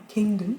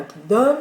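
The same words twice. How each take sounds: First: "kingdom" with stressed "king", reduced "dom"; weak "dom" ending. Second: "kingdom" with a loud, full-vowelled "dom"; wrong full "dom". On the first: Teacher correcting to the real form, "kingdom" with a weak "dom". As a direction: lean on "king" in "kingdom", let "dom" shrink. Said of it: "mais vraiment kingdom". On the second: Teacher showing what not to say, "kingdom" with a full "dom". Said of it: "C'est pas kingdom". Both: Shown as a demonstration.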